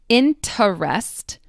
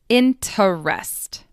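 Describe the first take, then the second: Both takes have the same delivery.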